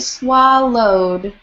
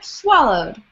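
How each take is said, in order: First: The word is said at a normal, unhurried pace. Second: The word is said quickly and compactly.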